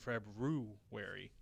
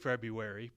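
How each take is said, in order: First: It is said with an R after the B. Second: It is said without an R after the B. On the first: This matches how the word is spelled. "we probably should be saying February" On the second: This is how people usually say it. "we say February"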